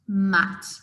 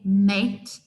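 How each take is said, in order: First: The vowel is a short 'a' sound. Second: The vowel is a long 'ay' sound. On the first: The child used the letter sound. The speaker calls it right. "I hope you can hear the difference there" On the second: The child used the letter name instead of the sound. The speaker calls it wrong. "use the letter name a"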